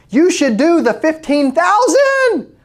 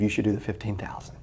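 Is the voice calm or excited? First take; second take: excited; calm. First: The voice is high and excited. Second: The voice is low and calm. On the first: The speaker calls it wrong. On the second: The speaker calls it right.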